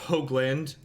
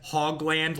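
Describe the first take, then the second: First: The first syllable does not sound like 'hog'. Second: The first syllable sounds like the word 'hog'. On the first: The speaker calls it right. "My last name is pronounced Hoagland" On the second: The speaker calls it wrong. "incorrectly mispronounce my name as Hogland, like a hog"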